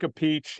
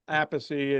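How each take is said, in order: First: The surname is pronounced in an Italian way. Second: The surname is pronounced in an English way.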